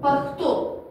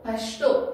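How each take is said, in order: First: The middle consonant is a rough kh sound. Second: The middle consonant is a hushing sh sound. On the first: "خین" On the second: "شین"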